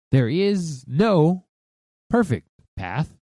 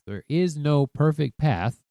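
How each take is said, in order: First: There is no... perfect path, drawn out with pauses; slow, paused emphasis on "perfect path"; dramatic slow repeat. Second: Said in the usual way. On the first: Shown as a demonstration. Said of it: "slowed dramatic repeat". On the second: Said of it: "repeated for emphasis".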